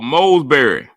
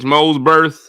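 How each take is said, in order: First: The name ends with an ee sound. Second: The name ends with a th sound. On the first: The speaker calls it wrong. "How we turned that T H into a R Y" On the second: The speaker calls it right. "actually pronounced correctly with a T H"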